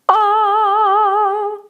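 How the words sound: It starts with a glottal catch.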